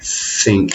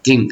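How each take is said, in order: First: It begins with the tongue between the teeth. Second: It begins with a d sound. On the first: The speaker calls it right. "You can put your finger there and go think" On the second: The speaker calls it wrong. "It's not re like Asians like to like dink"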